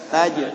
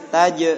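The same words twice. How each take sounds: Both takes have the same delivery.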